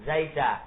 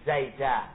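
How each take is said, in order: Both takes have the same delivery.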